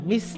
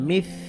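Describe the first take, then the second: First: The word ends in a plain s sound. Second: The word ends with the tongue tip out. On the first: The speaker calls it wrong. "মিস না" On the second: The speaker calls it right. "জিব্বার আগা একটু বের করে দিয়ে"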